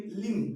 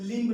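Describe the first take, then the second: First: लिम्ब said as "lim"; silent B in लिम्ब. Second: लिम्ब with a released b at the end, louder; B sounded in लिम्ब. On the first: Teacher giving the right reading, final b silent. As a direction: end लिम्ब on m, no b. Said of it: "लिम्ब नहीं". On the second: Teacher warning students off the misreading, final b pronounced. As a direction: say लिम्ब wrongly, finishing on b. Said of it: "इसे पढ़ेंगे लिम्ब नहीं". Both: Shown as a demonstration.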